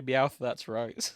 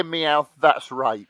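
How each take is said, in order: First: Slowly drawn-out Meowth, that's right, Meowth stressed; slow catchphrase. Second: Slowly drawn-out Meowth, that's right; deliberate slow read of the line; slow catchphrase. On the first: Begging Macron to record the Meowth line, slow and deliberate. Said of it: "I just need you to say". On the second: Friends asking Macron to record the Meowth line, slow and deliberate. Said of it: "But just say". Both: Pretend.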